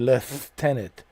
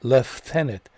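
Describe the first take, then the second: First: The word is said with an f sound. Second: The same.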